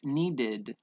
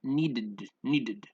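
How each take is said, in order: First: "needed" with a full second syllable, need-did; slow "needed" in two full syllables; clear -id ending. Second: "needed" with the second vowel squeezed out; swallowed ending. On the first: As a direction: correct it to a careful "needed", ending in id. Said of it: "No, it's needed". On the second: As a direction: demo mistaken "needed" as need'd. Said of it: "We don't pronounce it". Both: Shown as a demonstration.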